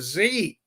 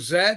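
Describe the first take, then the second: First: The letter is said as zee. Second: The letter is said as zed.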